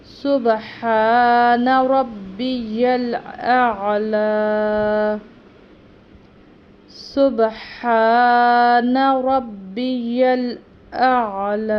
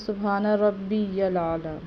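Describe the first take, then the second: First: Slow, drawn-out chant, much louder; prayer recitation. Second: ربی الاعلی run together as Rabia Lala; common mistake. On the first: Teacher demonstrating sajda tasbih, slow louder chant. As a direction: recite it fully and slowly. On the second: Teacher imitating a common wrong reading, plain quick. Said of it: "mostly لوگ ایسے کرتے ہیں". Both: Shown as a demonstration.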